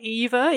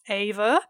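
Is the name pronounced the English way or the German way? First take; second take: English; German. First: The name is said the English way. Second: The name is said the German way. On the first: "even though that's anglicized" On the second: "Technically, it's pronounced Ava"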